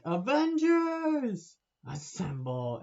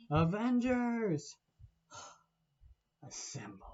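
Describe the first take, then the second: First: Very high, loud, slow 'Avengers', then dropped 'assemble'; mock battle call. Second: Slow, raised 'Avengers' then a sighed, whispered 'assemble'; drawn-out call fading to a whisper. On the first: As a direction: belt it like a hammed-up movie rally cry. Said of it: "they're all like". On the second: Retold or imitated. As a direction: start grand, then let it deflate into a whisper. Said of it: "And so it's like".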